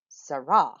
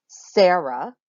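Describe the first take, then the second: First: Sarah as suh-RAH, weak first syllable; stress on second syllable. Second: Sarah as SA-rah, first syllable loud; stress on first syllable. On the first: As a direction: shift the weight of Sarah onto a long RAH. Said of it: "the other is not". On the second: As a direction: hit the SA in Sarah, let rah drop. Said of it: "which syllables get the emphasis". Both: Shown as a demonstration.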